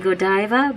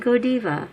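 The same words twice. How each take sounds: First: It is said with an English pronunciation. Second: It is said with a Japanese pronunciation. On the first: "now I say Godiva" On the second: "in Japanese they say Godiva"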